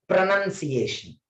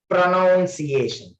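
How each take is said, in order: First: Pronunciation with "nun" in the second syllable; correct pronunciation. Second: Pronunciation said slowly with "noun" in the second syllable; wrong pronunciation. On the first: Teacher demonstrating the right one, pronunciation said with "nun". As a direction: say pronunciation as "pro-nun-see-AY-shun". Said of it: "First one correctly I will pronounce". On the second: Teacher demonstrating the wrong one, pronunciation said slowly with "noun". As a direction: say pronunciation as "pro-NOUN-see-AY-shun", drawn out. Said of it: "Second one wrongly I will pronounce".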